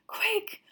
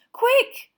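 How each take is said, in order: First: High, urgent moan; anxious moan. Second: High and loud, near panic; Hermione's fear peaking as they reach the trees; louder frantic moan. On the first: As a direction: plead for speed, scared. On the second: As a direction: push it into a frantic cry. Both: A narrator's reading. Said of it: "Hermione moaned".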